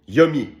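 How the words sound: The words are squeezed together, sounding like "yummy." "en québécois, on dit Yummy"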